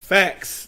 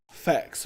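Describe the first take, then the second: First: Said in the usual way. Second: Breathless whispered "Facts". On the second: Real, not acted. Host whispering facts back to the guests. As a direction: mouth "Facts" under your breath.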